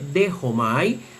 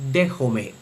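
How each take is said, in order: First: The final vowel sounds like 'ai'. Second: The final vowel sounds like 'e'. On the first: "en la pronunciación erasmiana se lee dejomai" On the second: "según la pronunciación reucliniana debe leerse dejome"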